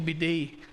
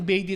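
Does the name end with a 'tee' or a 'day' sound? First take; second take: day; tee. First: The name ends with a 'day' sound. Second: The name ends with a 'tee' sound. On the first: The speaker calls it wrong. "kaysa sa Bidet" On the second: The speaker calls it right. "mas maganda siguro yung Beatty"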